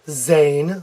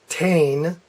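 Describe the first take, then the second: First: The word begins with a buzzing z sound. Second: The word begins with a plain t sound. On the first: "some Americans will pronounce it Zane. That's wrong" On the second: "They'll pronounce it Tain. That's wrong"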